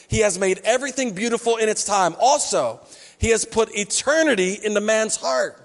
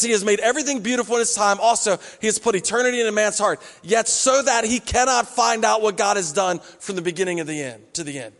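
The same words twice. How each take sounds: First: Measured read of the verse, every word weighed; scripture reading. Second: Quick reread. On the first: Pastor reads the verse aloud to his church, measured. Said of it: "Ecclesiastes three eleven says this". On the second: Pastor rereads the verse quickly to show the comma. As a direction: run through the verse again at speed. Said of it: "He says". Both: Shown as a demonstration.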